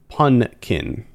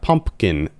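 First: The word is said with an 'n' and no 'p'. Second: The word is said with a full 'mp' sound. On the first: The speaker calls it right. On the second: The speaker calls it wrong. "Not pumpkin"

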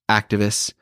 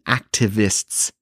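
First: The final T sound is dropped. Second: The final T sound is clearly pronounced. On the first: This is the speaker's relaxed everyday way of talking. "normally I would be like artists, activists, which there's no T's" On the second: The speaker is trying to sound professional. "trying to sound professional. So I'm saying artists and activists"

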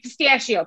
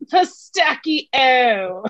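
First: It is said with a Chicago accent. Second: It is said with an Italian pronunciation.

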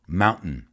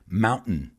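No difference in how they are said.

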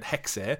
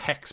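First: The word ends with an audible final vowel. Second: The word ends on the consonant, no final vowel. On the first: The speaker calls it right. "they do pronounce the E on it" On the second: The speaker calls it wrong. "we were saying Hex"

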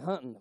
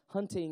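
First: The final g sound is dropped. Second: The final g sound is clearly pronounced. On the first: "I'm from Tennessee. We said" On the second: "pronounce the G"

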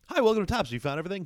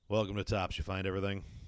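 First: It sounds ordinary and neutrally friendly. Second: It sounds flat, gloomy and down.

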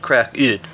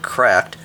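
First: The ending is said as a separate syllable. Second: The word is said as one syllable. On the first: This is a playful reading of the title. "I pronounce it Crack-Id" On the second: This is the ordinary form of the word. "not like cracked"

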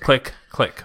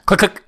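First: The two clicks are said slowly. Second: The two clicks are said quickly.

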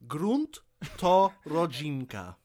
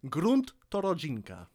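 First: It is said slowly. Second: It is said at normal speed.

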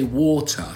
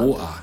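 First: It is said in a standard, non-local accent. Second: It is said in a local London accent.

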